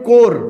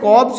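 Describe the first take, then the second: First: The word ends in "r" with no "bs". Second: The word ends with a "bs" sound. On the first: The speaker calls it right. "इसको पढ़ते हैं कोर" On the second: The speaker calls it wrong. "ये जो है कॉब्स नहीं है"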